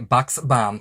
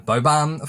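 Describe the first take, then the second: First: The x sound in the middle is pronounced. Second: The x sound in the middle is left out. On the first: The speaker calls it right. "The X is not silent" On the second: The speaker calls it wrong. "found out I was saying it wrong"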